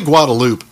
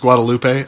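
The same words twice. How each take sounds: First: It uses the local regional pronunciation. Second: It uses the standard common pronunciation. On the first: This is how people in that area say it. "that's how they pronounce it down there" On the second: This is how the word is normally said. "I know it's Guadalupe"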